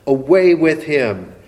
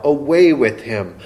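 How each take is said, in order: First: The second cry a notch louder, urgent; echoing crowd call, a bit louder. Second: Crowd cry. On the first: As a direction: push the repeat harder like a crowd. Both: Retold or imitated. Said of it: "all the people cried out".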